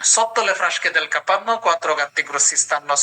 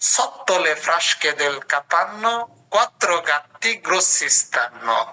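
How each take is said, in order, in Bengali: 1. এটা দ্রুত পড়া হচ্ছে, এক নিঃশ্বাসে। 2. এটা সাবলীলভাবে পড়া হচ্ছে, শব্দগুলো একসাথে। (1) "দম আটকায় পড়বেন" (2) "সবগুলো একসাথে পড়ার চেষ্টা করব"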